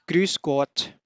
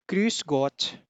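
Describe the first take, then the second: No difference in how they are said.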